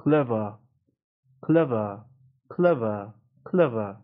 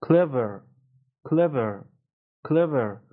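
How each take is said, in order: First: "Clever" as clev-uh, no r at the end; British silent R. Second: "Clever" ending in uh plus sounded r, not "ver" with eh; American "Clever" with a neutral r-coloured ending; schwa before R. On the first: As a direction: drop the final r of "Clever" into a schwa. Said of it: "اینجا هم آر تلفظ نمیشه". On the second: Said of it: "شواست". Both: Shown as a demonstration.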